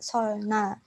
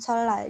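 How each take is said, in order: First: The middle is pronounced with an l then n. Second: The middle is pronounced as a double l. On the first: This is how it is written. "tulisannya tuh" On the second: This is how it is actually read. "dibacanya itu"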